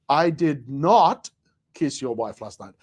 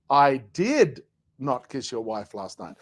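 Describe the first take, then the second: First: The stress falls on the word not. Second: The stress falls on the word did.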